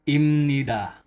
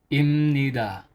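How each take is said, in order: The two takes are said the same way.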